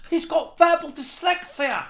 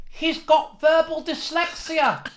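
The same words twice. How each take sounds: First: High, slow put-on jeer again; mocking heckler. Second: High, slow, far-off posh heckler voice; mocking heckler. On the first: Heckler repeating his jibe, slow high jeer. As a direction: stretch it out, mocking. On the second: Heckler mocking the stammering comic, slow high jeer. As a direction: jeer it slowly in a put-on voice. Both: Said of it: "This fellow stood up and he went".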